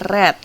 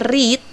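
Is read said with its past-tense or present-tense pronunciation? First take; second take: past tense; present tense. First: It is pronounced as the past-tense form. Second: It is pronounced as the present-tense form. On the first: The reading happened in the past. The speaker calls it right. "tapi ada read. Karena kita sudah masuknya ke past simple" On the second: The reading happens now or habitually. The speaker calls it wrong. "bacanya bukannya ada read, bukan"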